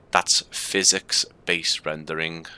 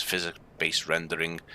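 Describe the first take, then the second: First: "physics-based rendering" said slowly, every syllable spelled out; slowly and clearly pronounce "physics-based rendering"; slow careful enunciation. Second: Said in the usual way. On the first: Shown as a demonstration. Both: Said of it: "in case the Scouse accent is making that sound awful".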